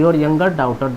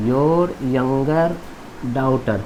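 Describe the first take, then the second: First: Said in the usual way. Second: Drawn-out words with a pause before the last; slow dictation. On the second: Shown as a demonstration. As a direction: dictate it slowly and lower for students. Teacher repeating translation word by word. (धीमे, खींचकर बोलते हुए लिखवाना)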